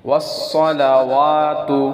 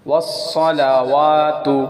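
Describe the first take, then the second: The two takes are said the same way.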